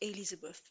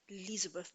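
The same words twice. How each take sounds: First: The name starts with a vowel before the L. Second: The name starts directly with an L sound. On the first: The speaker calls it wrong. "not Elizabeth" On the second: The speaker calls it right. "Elizabeth without the E at the beginning"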